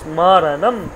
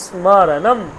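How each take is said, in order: No difference in how they are said.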